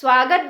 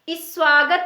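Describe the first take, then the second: First: The word starts directly with the s sound. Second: A short i vowel comes before the s. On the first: The speaker calls it right. "स्वागत बोलते हैं" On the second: The speaker calls it wrong. "इसे हम इस स्वागत नहीं बोलते हैं"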